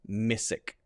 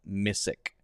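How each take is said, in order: First: The middle sound is an 's'. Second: The same.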